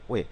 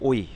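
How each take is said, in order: First: It glides from w to e, like 'we'. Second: It glides from o to i, like 'oi'. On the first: The speaker calls it right. "ওই উচ্চারণ না হয়ে এটা উচ্চারণ হবে ওয়ে" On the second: The speaker calls it wrong. "এর মূল উচ্চারণটা হওয়া উচিত ছিল ও প্লাস ই"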